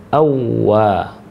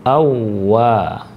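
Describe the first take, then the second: Both takes have the same delivery.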